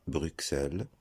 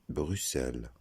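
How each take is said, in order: First: "Bruxelles" with the x sounded as KS; wrong pronunciation. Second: "Bruxelles" with the x sounded as SS; correct pronunciation. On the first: Teacher showing the common mistake in Bruxelles, mispronounced with KS. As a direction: say "Bruxelles" as brook-SELL, with a hard k before the s. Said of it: "On ne dit pas". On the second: Teacher showing learners the proper way, correctly pronounced with SS. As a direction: say "Bruxelles" as bru-SELL, no k sound. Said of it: "on dit". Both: Shown as a demonstration.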